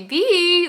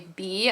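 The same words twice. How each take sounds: First: The name is drawn out into two syllables. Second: The name is said as one short syllable. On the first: "like two syllables" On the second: "I don't say Bee"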